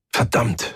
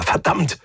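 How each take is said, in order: First: Said in the usual way. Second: Higher, more forceful "verdammt"; "verdammt" as a raised, exasperated outburst; repeated curse. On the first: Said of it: "und wieder verdammt". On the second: A narrator's reading. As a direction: curse with rising frustration on "verdammt". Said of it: "und wieder".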